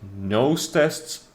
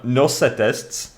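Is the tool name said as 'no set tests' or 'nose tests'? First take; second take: nose tests; no set tests. First: The name sounds like 'nose' plus 'tests'. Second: The name sounds like 'no', 'set', 'tests'.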